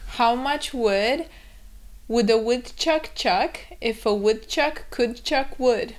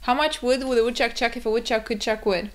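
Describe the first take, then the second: First: It is said at an ordinary, careful pace. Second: It is said rapidly, with words run together.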